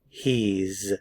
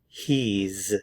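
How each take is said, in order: First: It is said as one contracted syllable. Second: The same.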